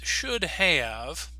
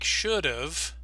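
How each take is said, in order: First: Both words are said in full. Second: 'Have' is shortened to a final v sound.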